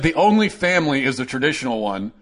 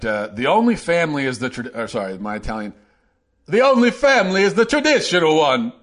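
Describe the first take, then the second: First: It is spoken in the speaker's normal accent. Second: It is spoken in an exaggerated Italian accent.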